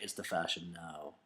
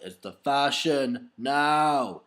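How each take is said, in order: First: Low put-on voice for the girl; bearded girl's voice. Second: Very slow, drawn-out repeat. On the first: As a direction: drop the voice low and flat for her. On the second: Retold or imitated. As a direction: stretch every word out slowly. Repeats the line slowly.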